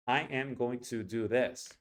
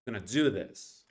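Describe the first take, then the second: First: Every word fully pronounced with Spanish-like even timing; Spanish rhythm. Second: "I'm gonna" squashed, "do this" stressed; English reduced rhythm. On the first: Teacher demonstrating the wrong way, Spanish-accented even syllables. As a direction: sound out each word equally, Spanish style. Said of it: "First in Spanish". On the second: Teacher showing the right English way, reduced "I'm gonna", big "do". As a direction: swallow "I'm gonna" and punch "do". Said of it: "In the right way". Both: Shown as a demonstration.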